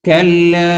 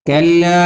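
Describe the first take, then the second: No difference in how they are said.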